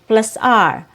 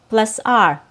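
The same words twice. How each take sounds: Both takes have the same delivery.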